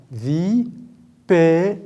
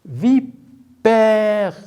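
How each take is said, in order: First: "Vi-pé-re" with long pauses, final re sounded as "reu"; three separate syllables. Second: "Vipère" split vi, long pause, drawn-out père; word in syllables. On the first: Teacher explaining three boxes to pupils, "Vi-pé-re" fully split. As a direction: sound out "Vi-pé-re" one held beat at a time. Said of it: "Parce qu'on a trois syllabes". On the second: Teacher helping pupils spot sounds, "Vipère" as vi... pèèère. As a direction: stretch "Vipère" into two separated beats. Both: Shown as a demonstration.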